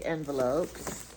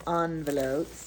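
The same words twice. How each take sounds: First: "envelopes" with EN, as in pen; EN pronunciation. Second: "Envelopes" opening with AHN; ON pronunciation. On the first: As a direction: begin "envelopes" with a short "en" sound. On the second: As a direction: say "Envelopes" starting like the word "on". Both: Shown as a demonstration. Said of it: "Do you say envelope or envelope".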